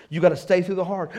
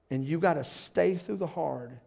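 First: Louder, faster, driving it home; emphatic repeat. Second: Said in the usual way. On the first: Shown as a demonstration. Pastor to church, punched loud repeat. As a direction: hammer the line a second time.

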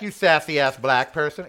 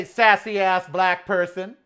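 First: Louder, sharp comeback; loud retold comeback. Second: Slow, loud and higher insult; loud slow comeback. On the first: Retelling the insult to the guard, loud. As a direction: toss the insult back. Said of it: "It's like". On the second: Retold or imitated. Answering the guard's insult, loud and slow. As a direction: fire the insult right back. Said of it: "I say".

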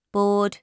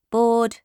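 The two takes are said the same way.

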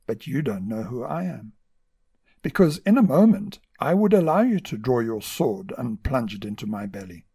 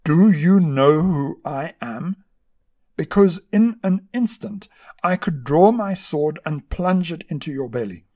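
First: Gentle reply. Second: Loud, slow, furious bark at the monk; barked threat. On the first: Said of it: "replied in a gentle tone". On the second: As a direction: bark it down at him like a vexed general. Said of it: "this vexed general barked". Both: A narrator's reading.

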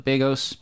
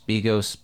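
First: Begos said with BAY as the first syllable; name pronounced BAY-gos. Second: Begos said with BEE as the first syllable; name pronounced BEE-gos. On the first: Host trying out the director's surname, Begos as BAY-gohs. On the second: Host correcting the director's surname, Begos as BEE-gohs. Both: Shown as a demonstration.

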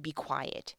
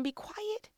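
First: Said in the usual way. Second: High, soft shushing; a crowd member hushing the beggar; hushing bystander. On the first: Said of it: "the people in front of him said". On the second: Acted. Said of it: "Somebody told him".

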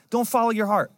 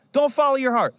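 First: Said in the usual way. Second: "Don't" higher and louder, hammered home; emphatic. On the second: Shown as a demonstration. Pastor warning congregation against feelings, emphatic louder. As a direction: preach "Don't follow your heart" with full force.

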